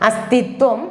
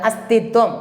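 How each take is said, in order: No difference in how they are said.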